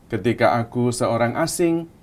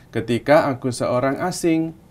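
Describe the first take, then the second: The two takes are said the same way.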